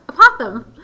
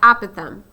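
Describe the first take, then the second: First: It sounds like a possum with a lisp. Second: It sounds like the words apple thumb. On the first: "like a possum, but with a lisp" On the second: "that sounds like apple thumb"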